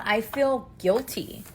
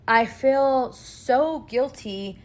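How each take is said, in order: First: Said in the usual way. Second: SO drawn out slowly; stress on SO. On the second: Real, not acted. Mom confessing guilt about her home, slow stress on SO. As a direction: lean long and slow on "so". Repeats guilt with added emphasis.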